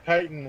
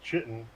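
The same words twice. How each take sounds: First: The word begins with a k sound. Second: The word begins with a ch sound. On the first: "chitin is the way" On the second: "I always pronounce it as chitin because it's C H"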